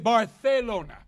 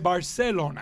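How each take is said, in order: First: It is said with a Castilian Spanish accent. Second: It is said with a Central American accent. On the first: "That's how you say it in Castilian Spanish" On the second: "In Central America, we say Barcelona"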